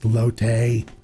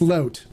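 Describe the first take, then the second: First: The word is pronounced the Spanish way. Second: The word is pronounced the English way. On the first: This is the original foreign pronunciation. "I know it's pronounced lote" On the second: He adapts the word when speaking English. "when I'm speaking English, I go in English mode"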